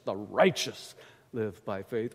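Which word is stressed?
righteous. The word righteous carries the emphasis. It is the righteous who live by faith. "we often either emphasize righteous"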